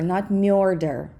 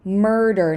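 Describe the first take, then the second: First: The M is soft and palatalized. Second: The M is hard, not palatalized. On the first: The speaker calls it wrong. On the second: The speaker calls it right.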